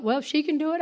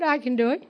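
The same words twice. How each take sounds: First: "she" lifted and stressed against "I". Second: "I" lifted and stressed in answer to "she". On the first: Recalling the thought that gave her courage, stress on she. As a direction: lean on "she" in "if she can do it". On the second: Recalling the thought that gave her courage, stress on I. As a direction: land on "I" in "I can do it". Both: Retold or imitated. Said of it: "And I thought".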